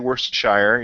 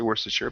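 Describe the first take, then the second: First: The word is said fully, ending in 'shire'. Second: The word is shortened, ending in 'sher'. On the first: The speaker calls it wrong. "you don't say" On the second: The speaker calls it right. "you say"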